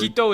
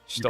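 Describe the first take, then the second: First: The word begins with a plain h sound. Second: The word begins with a hissing sh sound. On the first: The speaker calls it wrong. "hito is not right" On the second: The speaker calls it right. "It's shito"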